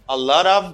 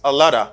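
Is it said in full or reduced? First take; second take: full; reduced. First: Each word is said fully and separately. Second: The words blend into one reduced form.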